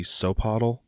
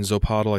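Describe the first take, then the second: First: Sopotl starting on an S, no buzz; soft S. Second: Zopotl with a hard buzzing Z at the start. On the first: Correcting own pronunciation, Sopotl said with an S. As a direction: open Sopotl with a plain S sound. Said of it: "I think it's supposed to be". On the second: Explaining own pronunciation, Zopotl said with a hard Z. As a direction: lean on the Z in Zopotl. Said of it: "doing the Z a little hard". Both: Shown as a demonstration.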